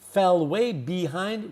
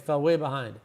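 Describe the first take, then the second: First: Each word is said clearly and separately. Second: The words are mashed together in relaxed speech. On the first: The speaker calls it wrong. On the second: The speaker calls it right.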